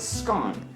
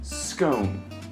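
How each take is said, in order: First: It is said the Scottish and northern English way. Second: It is said the southern English way. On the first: "In Scotland and northern England, people typically pronounce it as a scone" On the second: "in the south of England, it's typically pronounced scone"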